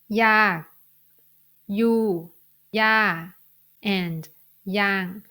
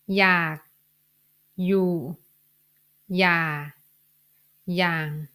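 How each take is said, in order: First: The words are said with a falling tone. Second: The words are said with a low tone. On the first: "I need to pronounce them in a falling tone" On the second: "These four words have low tone"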